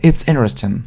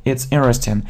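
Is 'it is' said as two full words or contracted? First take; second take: contracted; contracted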